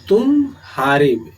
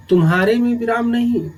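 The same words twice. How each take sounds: First: "तुम्हारे" split as तुम, gap, हारे; pause inside word. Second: "तुम्हारे" quick and higher, in one piece; no pause. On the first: Teacher answering where the pause is, break after तुम in तुम्हारे. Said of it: "विराम कहाँ है?". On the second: Teacher showing quick transition in speech, तुम्हारे said unbroken. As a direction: run तुम्हारे together without any break. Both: Shown as a demonstration.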